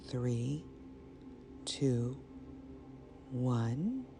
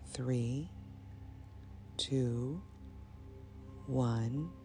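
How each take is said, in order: Both takes have the same delivery.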